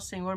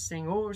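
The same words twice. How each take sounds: First: The word is said plainly, without special intonation. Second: The word is said with marked, emphatic intonation. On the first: "não só Senhor" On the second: "ainda com uma entonação"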